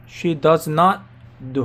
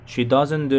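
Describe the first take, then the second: First: Does and not are said as two full words. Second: Does and not are merged into one syllable.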